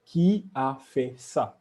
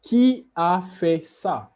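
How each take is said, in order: First: Said in the usual way. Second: "Qui a fait ça?" slow, a touch higher and louder; slow model question. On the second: Shown as a demonstration. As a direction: ask it slowly so students hear each word. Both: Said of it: "a small conversation".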